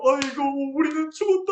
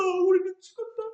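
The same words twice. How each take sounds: First: High wailing cry "우리는 죽었다"; mock wailing. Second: "우리는 죽었다" higher, climbing into a wail; rising wail. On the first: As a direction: bawl out "우리는 죽었다" in despair. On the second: Acted. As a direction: push "우리는 죽었다" up into a bigger cry. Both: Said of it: "통곡을 했어요".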